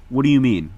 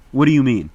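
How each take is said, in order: Both takes have the same delivery.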